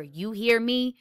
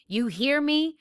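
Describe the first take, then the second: First: First demand, a touch of anger; mildly furious. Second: Repeated demand pushed higher, with mild anger; rising fury. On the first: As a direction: press him once, firmly but understated. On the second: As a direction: press harder the second time, pitch climbing. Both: A narrator's reading. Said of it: "Jem was suddenly furious".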